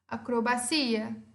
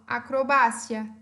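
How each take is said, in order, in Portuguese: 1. Pronunciada com a tônica do português. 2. Pronunciada com a tônica do espanhol. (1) "Em português" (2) "Em espanhol"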